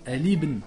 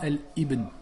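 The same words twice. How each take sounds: First: الابن with the alif silent, linked; correct hamzat wasl. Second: الابن with a hard glottal stop on the alif; wrong hamza. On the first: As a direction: say الابن eliding the initial a. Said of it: "Normalement, on dit". (الابن prononcé sans hamza, lié) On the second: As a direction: stop sharply before الابن. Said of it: "on dit pas". (الابن avec un coup de glotte fautif) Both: Shown as a demonstration.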